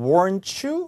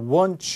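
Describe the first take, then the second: First: It has a North American accent with a clear r. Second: It has a British accent with no r sound. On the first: "캐나다 사람이나 미국 사람이 발음했다면" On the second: "er 사운드가 호주나 영국 영어에는 없으니까 그냥 weren't you 이렇게 되는 거죠"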